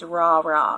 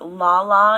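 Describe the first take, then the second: First: The syllables begin with an R sound. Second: The syllables begin with an L sound. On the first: "it's ra ra" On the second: "Instead of la la"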